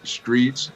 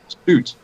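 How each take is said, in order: First: The name rhymes with streets. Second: The name rhymes with boots. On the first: The speaker calls it wrong. "slaughtered my both my names" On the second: The speaker calls it right. "like boots, like roots"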